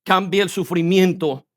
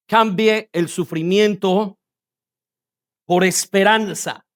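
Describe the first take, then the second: First: Said in the usual way. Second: "Cambie" and "sufrimiento" drawn out slowly; slow, deliberate repetition. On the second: Shown as a demonstration. Preacher simplifying a seemingly complex phrase, slow and deliberate. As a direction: say "Cambie el sufrimiento por esperanza" slowly, spaced in two parts.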